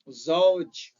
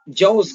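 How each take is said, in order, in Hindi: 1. यह मानक अरबी उच्चारण में बोला गया है। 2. यह सीरियाई अरबी उच्चारण में बोला गया है। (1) "जो कि असल लफ्ज क्या है? जौज। सही है" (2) "सीरियन लहजे में मालूम क्या करते हैं? ... जौज कर देते हैं।"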